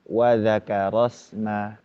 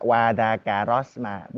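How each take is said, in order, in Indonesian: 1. Vokal A hanya dibuka sedang. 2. Vokal A dibuka sangat lebar. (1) "lebih ke ya sekitar dua atau tiga" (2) "Tidak yang terbuka wadakarosma, bukan"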